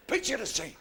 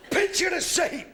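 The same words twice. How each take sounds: First: Said in the usual way. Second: High, raised storyteller's call; announcing. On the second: Real, not acted. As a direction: call the audience to attention, high and loud. Sets up story for audience.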